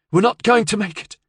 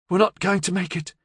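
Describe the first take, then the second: First: Louder, insistent. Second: Panicked. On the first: Acted. Repeats to Mayo louder. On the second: A narrator's reading. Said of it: "She was panting heavily now".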